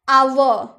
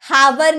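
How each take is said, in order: First: It begins with a vowel sound. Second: It begins with an h sound. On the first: The speaker calls it right. "आवर यानी कि घंटा" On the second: The speaker calls it wrong. "हावर नहीं ना बोलते हैं"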